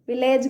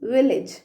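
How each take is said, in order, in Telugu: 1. చివరి అక్షరంలో 'ay' అచ్చు ఉంది. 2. చివరి అక్షరంలో 'ih' అచ్చు ఉంది. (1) "విలేజ్ కాదు" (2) "ఏమనాలి?"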